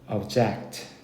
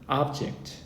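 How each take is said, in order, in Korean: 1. 강세는 두 번째 음절에 있어요. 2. 강세는 첫 번째 음절에 있어요. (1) "동사형은 강세가 여기 붙어서" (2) "명사형은 강세가 앞에 붙습니다"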